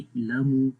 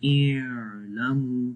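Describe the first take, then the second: First: The opening throat sound is harsh and abruptly closed. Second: The opening throat sound is drawn out too long. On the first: "बहुत सख्त भी नहीं पढ़ना जैसे इलमु कुछ लोग पढ़ते हैं ए तो ये आवाज बंद हो जाती है" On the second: "बहुत लंबा भी नहीं करना इलमु तो वो भी गलत है"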